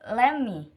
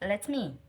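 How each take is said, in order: First: The two words are squeezed into one. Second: Each of the two words is said fully. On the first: "someone say let me instead of" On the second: "instead of let me"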